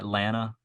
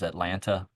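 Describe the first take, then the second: First: The second t is dropped, like Atlanna. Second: The second t is clearly pronounced. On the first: This is how locals say the name. The speaker calls it right. "A N N A H is probably the better pronunciation" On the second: This is how outsiders say the name. The speaker calls it wrong. "That that drives me crazy. Anybody that says Atlanta"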